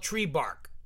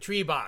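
First: It is said in the speaker's ordinary accent. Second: It is said in a Boston accent.

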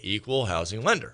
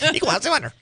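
First: The phrase is spoken at a normal, clear pace. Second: The phrase is rushed out very fast and high. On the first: The disclaimer is stated openly. The speaker calls it right. "we say equal housing lender, right? We speak it" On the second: The disclaimer is hidden by rushing it. The speaker calls it wrong. "we don't speed it up like a chipmunk"

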